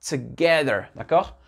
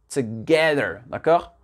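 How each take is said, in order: Both takes have the same delivery.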